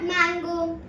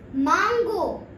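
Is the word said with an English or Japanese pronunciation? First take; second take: English; Japanese. First: It is said with an English pronunciation. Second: It is said with a Japanese pronunciation. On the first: The speaker calls it wrong. "It is not mango" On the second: The speaker calls it right. "It is mango"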